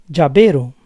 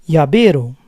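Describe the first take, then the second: No difference in how they are said.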